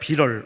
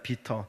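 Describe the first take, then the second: First: It is said with a rolled English-style pronunciation. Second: It is said with a Korean-style pronunciation. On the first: "영어로 조금 굴린다면 비럴 이렇게 되겠죠?" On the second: "한국식으로 반응, 발음을 한다면 비터가 됩니다"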